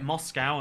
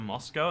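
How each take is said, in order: First: It is said with an American pronunciation. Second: It is said with a non-American pronunciation. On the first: The speaker calls it wrong. "Americans say it Moscow" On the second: The speaker calls it right. "instead of Moscow"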